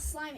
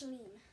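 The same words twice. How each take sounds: First: Said in the usual way. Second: Shleem with sh and a long ee instead of slime. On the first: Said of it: "it's sh-, shleem". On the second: Shown as a demonstration. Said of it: "It's not slime".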